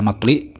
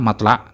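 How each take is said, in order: First: The vowel after the l is i. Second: The vowel after the l is a. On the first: "dibaca kasrah lamnya" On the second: "dengan dibaca fathah lamnya"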